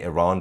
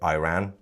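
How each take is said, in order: First: The first syllable sounds like 'ee'. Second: The first syllable sounds like 'eye'. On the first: "instead of saying Iran" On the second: "they say Iran. ... it's not iPhone"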